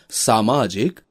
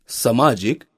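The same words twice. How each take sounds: First: सामाजिक with long first aa; correct vowel length. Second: सामाजिक with short first a; wrong vowel length. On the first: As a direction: draw out 'saa' in सामाजिक. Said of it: "शुद्ध शब्द है". (सामाजिक में लंबा 'सा') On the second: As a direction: say सामाजिक as 'samaajik'. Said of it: "अशुद्ध शब्द है". (सामाजिक को 'समाजिक' बोलना) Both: Shown as a demonstration.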